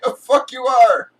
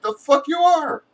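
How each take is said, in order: First: Louder and higher, full shout; retold shout. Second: High, sharp mock retort; defiant retort. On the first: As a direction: yell it right back at them. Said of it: "I'm like". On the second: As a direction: fire it back, pitched high. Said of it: "And I'm like".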